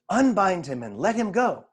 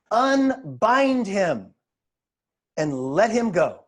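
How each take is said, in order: First: Said in the usual way. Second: Very slow, emphatic command; solemn command. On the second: A narrator's reading. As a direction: stretch each word with weight and a pause. Jesus commands in scripture reading.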